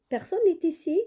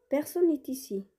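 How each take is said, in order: First: Personne n'est ici asked, much higher and louder, rising; teacher asking it as a question; question tune. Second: Said in the usual way. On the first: Shown as a demonstration. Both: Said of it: "Non, c'est une question".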